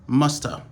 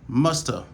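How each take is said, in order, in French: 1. Le have est réduit à presque rien. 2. Le have est réduit à presque rien.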